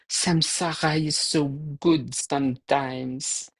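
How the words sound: It is spoken with a French accent. A friend's remark is being imitated.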